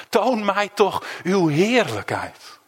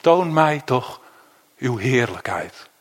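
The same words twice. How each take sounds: First: Slow, yearning prayer; "Toon" stretched slowly, each word weighed; slow earnest plea. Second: Slow, hushed longing for God; slow earnest plea. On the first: Believer asking God to see more of him, slowly. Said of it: "tegen God kunt zeggen". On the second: Preacher voicing Moses' longing plea to God, slow and hushed. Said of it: "dan dat ene kleine zinnetje". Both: Acted.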